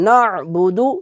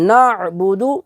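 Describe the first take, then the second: No difference in how they are said.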